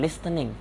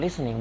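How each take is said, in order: First: It is read out the way it is spelled. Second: It is said the way native speakers say it. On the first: The speaker calls it wrong. "bukan listening" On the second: The speaker calls it right. "ternyata pengucapannya listening"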